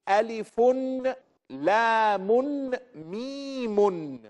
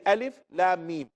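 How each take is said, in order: First: Each letter name ends with an added 'un' sound. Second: Each letter name ends without an added sound. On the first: This is the form the grammar rule would give. "it should be Alifun, Lamun, Mimun" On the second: This is the form the Prophet used and taught. "We say Alif, Lam, Mim"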